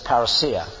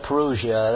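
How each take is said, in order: First: It is pronounced the original Greek way. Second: It is pronounced the common English way. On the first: "the Greek pronunciation is parousia" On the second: "You hear people saying parousia, that's all right"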